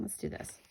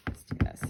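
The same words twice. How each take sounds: First: Barely voiced whisper, much softer, to herself; whispered pep talk. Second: A firmer whisper, unvoiced but a bit stronger; whispered pep talk. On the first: Crafter psyching herself up over the trimmer, in a soft whisper. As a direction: hush a pep talk to yourself. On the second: Crafter repeating her pep talk before the cut, in a firmer whisper. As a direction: whisper it again with more push. Psyching herself up again. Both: Real, not acted.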